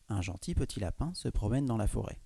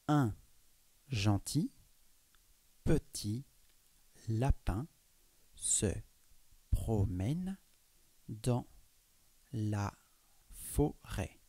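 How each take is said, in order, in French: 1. La phrase est lue plus vite. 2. La phrase est lue lentement. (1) "de lire un peu plus rapidement" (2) "Là, j'ai lu lentement"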